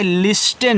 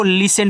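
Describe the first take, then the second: First: लिस्टन slowly, with the t sounded; mispronunciation of listen. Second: लिसन with no t sound; listen with silent t. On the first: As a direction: say लिस्टन as LIS-tun, leaning on the t. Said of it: "लिस्टन नहीं". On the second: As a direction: say लिसन as LI-sun. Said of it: "आपको लिसन पढ़ना है". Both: Shown as a demonstration.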